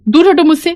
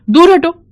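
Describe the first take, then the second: First: High, loud shout, pushing her off; angry shout. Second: Much higher, louder shout of dismissal; angry shout. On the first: Officer yelling at the widow to move off, furious. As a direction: yell at her to back away. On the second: Arrogant officer shouting at a widow to get away, furious. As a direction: drive her away with a yell. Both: Acted. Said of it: "डांट रही है".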